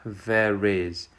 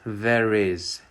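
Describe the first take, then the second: First: An r sound links the two words. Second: The same.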